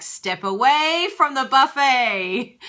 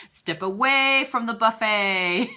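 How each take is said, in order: First: Slow, loud, higher mock command; stern mock warning. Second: Mock stern warning. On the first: Quoting Marie Forleo's stern warning, slow and loud. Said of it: "And she was like". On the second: Shown as a demonstration. Repeating the buffet line for a listener as a slow loud warning. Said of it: "you like the step away from the buffet".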